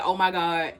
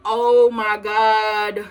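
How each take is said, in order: First: Said in the usual way. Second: Very slow, drawn-out, louder shocked "Oh, my God"; staring at the wrecked car, slow stunned exclamation; stunned gasp. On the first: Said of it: "I immediately said". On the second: Retold or imitated. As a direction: stretch it out in disbelief. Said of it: "I looked at the car and I was like".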